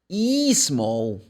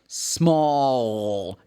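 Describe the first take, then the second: First: An extra vowel syllable comes before the S. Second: The word starts directly with the S sound. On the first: The speaker calls it wrong. "Brazilian students normally say E small. They put an, one more syllable in the beginning" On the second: The speaker calls it right. "you should produce this sound"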